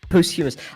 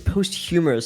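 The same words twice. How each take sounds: First: The middle does not sound like humorous. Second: The middle sounds like the word humorous. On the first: The speaker calls it right. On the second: The speaker calls it wrong.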